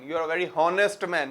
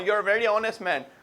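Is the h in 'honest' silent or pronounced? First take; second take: pronounced; silent. First: The h in honest is pronounced. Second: The h in honest is silent. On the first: The speaker calls it wrong. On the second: The speaker calls it right.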